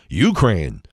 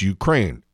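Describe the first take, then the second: First: The stress is on the first syllable. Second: The stress is on the second syllable. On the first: The speaker calls it wrong. "some people calling it Ukraine" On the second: The speaker calls it right. "accent on the second syllable"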